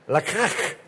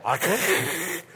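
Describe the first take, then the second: First: Lakach said the Hebrew way, ending in a throaty k; Hebrew word lakach. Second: Lakach said gently, rising at the end; Hebrew word lakach. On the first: Pastor showing the congregation how the Hebrew word lakach is said. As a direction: lakach sounded out carefully with a rising end. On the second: Pastor repeating the Hebrew word lakach for the congregation. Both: Shown as a demonstration. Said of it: "that's how they say it".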